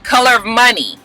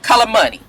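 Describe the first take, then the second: First: It is said slowly, every word clear. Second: It is said fast, words run together.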